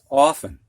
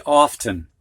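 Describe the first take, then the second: First: "often" said OFF-un with no T sound; silent T. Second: "often" said OFF-tun with a clear T; imitating students saying "often" as OFF-tun; T pronounced. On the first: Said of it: "You don't hear that T". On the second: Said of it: "when students first get this word, they'll say". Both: Shown as a demonstration.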